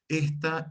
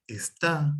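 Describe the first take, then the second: First: Esta stressed on the first syllable, ES-ta; unaccented esta. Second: Está stressed on the last syllable, es-TÁ; accent on final A. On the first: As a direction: say esta with the weight on ES. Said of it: "cuando va sin acento". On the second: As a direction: say está slowly, landing on TÁ. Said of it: "el acento en una A". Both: Shown as a demonstration.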